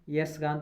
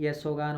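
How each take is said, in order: First: It begins with 'yas' and no 'o' follows. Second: It begins with 'yasho', with an 'o' sound. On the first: The speaker calls it wrong. "यस गान तो होता नहीं" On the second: The speaker calls it right. "यशोगान होता है"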